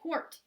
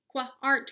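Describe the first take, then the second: First: The word is said as one short syllable. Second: The word is split into two drawn-out parts. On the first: The speaker calls it right. "we say quart" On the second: The speaker calls it wrong. "We don't say qua-art"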